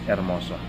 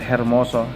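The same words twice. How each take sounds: First: The word begins with no h sound. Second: The word begins with an audible h. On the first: The speaker calls it right. "letter H is not pronounced. Okay, it's silent" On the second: The speaker calls it wrong. "Instead of hermoso"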